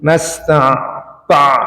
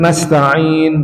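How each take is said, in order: First: The ta sound is dragged toward the ain. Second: The ta sound is plain and unforced. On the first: The speaker calls it wrong. "ini yang salah" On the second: The speaker calls it right. "biasa aja harusnya"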